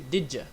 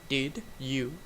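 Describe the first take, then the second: First: The second word is reduced to a quick 'ya'. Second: The second word is a full, clear 'you'. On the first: "we can say did ya" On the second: "Instead of did you"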